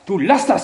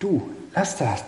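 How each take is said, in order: First: The voice sounds serious, sharp and stern. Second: The voice sounds soft, friendly and mild. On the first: It is not said in love. "Wenn man ernst sagt" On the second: The child feels free to keep doing it. "der Tonfall, der war so nett"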